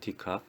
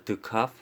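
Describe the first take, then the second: First: The first syllable has a full 'dee' vowel. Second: The first syllable has a short, reduced 'duh' vowel. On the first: "어떤 사람은 디카프라 하기도 해요" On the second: "저 같은 경우는 이제 드카프라고 합니다. 드 드라고 합니다"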